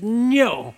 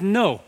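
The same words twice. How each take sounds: First: The word is said forcefully, with strong emphasis. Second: The word is said plainly, without force.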